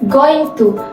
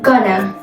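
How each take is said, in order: First: Both words are said fully and separately. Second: The words are blended into one reduced form.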